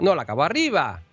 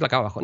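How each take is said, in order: First: "la acabo arriba" with the pitch lifted on "arriba"; ending high. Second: "la acabo abajo" with the pitch falling at the end; ending low. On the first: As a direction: let "arriba" end up in the air. ("arriba" con final ascendente) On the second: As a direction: finish "abajo" low and settled. ("la acabo abajo" con final descendente) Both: Shown as a demonstration. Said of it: "Las frases tienen que acabar abajo".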